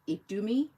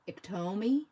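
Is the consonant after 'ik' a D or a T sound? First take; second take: D; T. First: The consonant after 'ik' is a D sound. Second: The consonant after 'ik' is a T sound. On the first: The speaker calls it right. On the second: The speaker calls it wrong.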